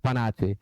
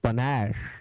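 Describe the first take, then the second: First: The word ends with a 'chay' sound. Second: The word ends with an 'sh' sound. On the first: The speaker calls it wrong. "बहुत सारे बच्चे इसे पनाचे पढ़ते हैं" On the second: The speaker calls it right. "It is पनैश"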